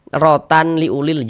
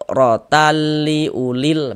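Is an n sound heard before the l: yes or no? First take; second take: yes; no. First: The n sound is kept before the l. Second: The n sound merges into the l. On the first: The speaker calls it wrong. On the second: The speaker calls it right. "Masuk saja terus pendek"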